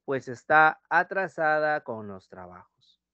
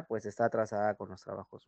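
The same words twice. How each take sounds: First: Está alargado y lento; dictado lento. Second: Said in the usual way. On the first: Shown as a demonstration. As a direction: dicta despacio para que copien. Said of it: "Marta come rápido". (dictado pausado) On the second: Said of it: "¿Ya?".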